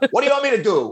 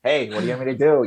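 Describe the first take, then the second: First: It is said in a harsh, irritated way. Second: It is said in a gentle, friendly way.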